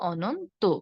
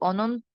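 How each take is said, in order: First: The word ends with an 'o' vowel. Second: The word ends in a bare consonant. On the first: The speaker calls it right. "ও এর মতো করে বলবো" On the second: The speaker calls it wrong. "না বলে"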